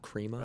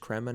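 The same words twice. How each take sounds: First: The first vowel does not sound like 'creme'. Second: The first vowel sounds like 'creme' in creme brulee. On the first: The speaker calls it wrong. "not crema" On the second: The speaker calls it right. "I guess it's crema, ... It's like uh it's like creme brulee"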